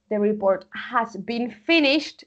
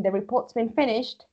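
First: Said in the usual way. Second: "The report's been finished" with has shrunk to an s; contracted report's. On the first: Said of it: "Si alguien lo pronuncia así". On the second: Shown as a demonstration. Teacher contrasting full and contracted forms for the class. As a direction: run report's and been together quickly. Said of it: "Pero si dicen".

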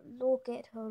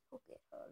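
First: Said in the usual way. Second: Hushed look at her, almost breathless; whispered coaxing; whispered urging. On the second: Shown as a demonstration. Softly urging viewers to look.

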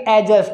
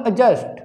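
First: "एडजस्ट" opening on a full ae; "एडजस्ट" as aa-just; wrong full vowel. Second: "एडजस्ट" as a faint uh-just; "एडजस्ट" with a silent d; light schwa. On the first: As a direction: start "एडजस्ट" with a clear a as in cat. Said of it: "ना कि". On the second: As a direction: weaken the first vowel of "एडजस्ट" and drop the d. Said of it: "हल्का सा sound आएगा". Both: Shown as a demonstration.

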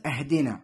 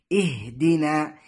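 First: "أهدنا" starting with a, ahdinaa; fatha on hamza. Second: "اهدنا" starting with i, ihdinaa, slowly recited; kasra on hamza. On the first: Teacher imitates a common mistake, "أهدنا" as ahdinaa. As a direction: open the first vowel of "أهدنا" to a. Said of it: "البعض يقرأها بالفتح". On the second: Teacher gives the correct reading, "اهدنا" as ihdinaa. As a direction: begin "اهدنا" on i and draw it out. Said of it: "فالصحيح". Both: Shown as a demonstration.

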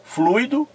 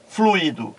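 First: "Fluido" as FLUI-do, high and rising; fluido as diphthong. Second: "fluido" as flu-Í-do, falling tune; fluído with hiatus. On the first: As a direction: say "Fluido" in two syllables, stress on u. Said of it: "As vogais e as consoantes são as mesmas". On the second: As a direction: say "fluido" in three syllables, stressed i. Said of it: "A diferença aqui é que este i". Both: Shown as a demonstration.

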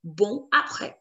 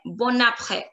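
First: BON cut off from APRÈS, N unpronounced; pause between words. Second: BON APRÈS run together as "bo-naprè"; liaison. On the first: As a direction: say BON with nasal ending, pause, then APRÈS. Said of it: "having a pause in between". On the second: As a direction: link the N of BON onto APRÈS, no pause. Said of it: "it is going to be". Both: Shown as a demonstration.

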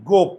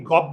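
First: "গোপ" said with a rounded o, jaw barely open; closed o sound. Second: "গপ" said with an open aw instead of o; wrong open vowel. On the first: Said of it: "চোয়াল খুলে না". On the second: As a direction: say "গপ" as gawp, jaw dropped. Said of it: "আমরা কি গপ বলি?". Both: Shown as a demonstration.

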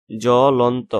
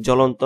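First: জ্বলন্ত drawn out as "jo-lon-to", silent ব; syllable-by-syllable pronunciation. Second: Said in the usual way. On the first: Shown as a demonstration. Teacher showing students the silent bophola, জ্বলন্ত sounded out slowly as jo-lon-to. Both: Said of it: "কোনো উচ্চারণ হয় না".

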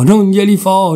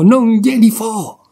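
First: Raised, louder defiant insistence; stubborn angry repeat; defiant refusal. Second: Much higher, slow, drawn-out refusal; drawn-out defiance. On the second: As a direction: stretch each word in stubborn spite. Nenè's refusal climbing to peak. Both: Acted.

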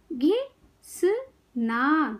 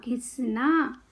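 First: घिसना very slowly in three separate parts; syllable by syllable. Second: Said in the usual way. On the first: Shown as a demonstration. Teacher teaching kids to read, syllables apart. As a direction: break घिसना into घि - स - ना. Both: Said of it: "शब्द पढ़ना सिखाऊंगी".

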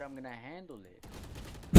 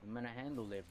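First: Louder, slow, every word leaned on; insistent repeat. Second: Said in the usual way. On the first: Real, not acted. Insisting to his teammate he will handle it, louder and slow. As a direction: hammer it home, slowly. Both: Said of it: "I said".

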